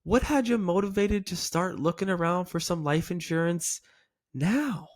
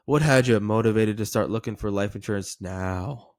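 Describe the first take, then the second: First: Pause, then elongate "now" upward with curiosity; curious lilt, "now" stretched and raised; upward inflection. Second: Low, flat question dropping on "now"; uncurious delivery, "now" ending down; downward inflection. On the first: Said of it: "It's actually up". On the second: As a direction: run through it and let "now" fall. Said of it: "It's not down". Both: Shown as a demonstration.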